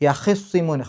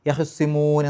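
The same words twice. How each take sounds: First: The vowel after kh is full and clearly heard. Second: The vowel after kh is quick and barely heard. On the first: "വ്യക്തമായിട്ട് ഹാഇൻ്റെ കെസർ കേൾക്കും" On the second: "പെട്ടെന്ന് വേഗത്തിൽ അവിടെ ഹ് എന്നങ്ങ് പറയും. അത് ഹി ആണോ ഹ് ആണോ എന്നുള്ളത് വ്യക്തമാവില്ല"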